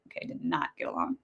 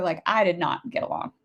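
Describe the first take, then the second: First: Whispered aside. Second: Said in the usual way. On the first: Real, not acted. Repeating to the viewer as a fast whispered aside. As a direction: whisper it, much lower and softer.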